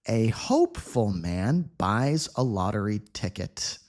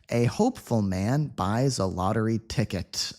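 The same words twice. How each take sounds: First: The sentence is read at a slow pace. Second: The sentence is read at a faster pace. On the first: "Reading slowly at first" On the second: "a little faster"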